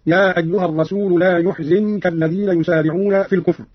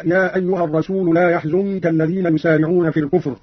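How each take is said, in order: First: يحزنك with damma on ي and kasra on ز; Qalun reading. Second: Said in the usual way. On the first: Shown as a demonstration. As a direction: say يحزنك as "yuhzinka", u on the ya, i on the zay. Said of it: "بضم الياء وكسر الزاي هكذا". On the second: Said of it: "قرأ قالون بضم الياء وكسر الزاي".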